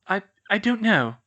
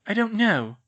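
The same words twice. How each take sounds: First: Halting, tearful stammer on I, I; a girl stammering close to tears. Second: Said in the usual way. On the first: Acted. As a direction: stumble over the words, upset. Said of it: "she stammered". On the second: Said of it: "she repeated".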